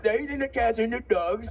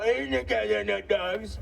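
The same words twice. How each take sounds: First: A slightly surer, still lightly voiced Trump; improved Trump impression. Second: A rough first-pass Trump voice; Trump impression. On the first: Comic claims he can really do the impression, lightly voiced Trump. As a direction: deliver the Trump line with more confidence. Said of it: "I can really do a good impression". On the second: Comic tries the Trump line, host says it improves. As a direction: try the Trump line, still finding the voice. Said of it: "it's getting better".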